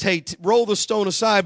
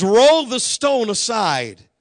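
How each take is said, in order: First: Said in the usual way. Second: Commanding. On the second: Retold or imitated. Jesus commands at tomb.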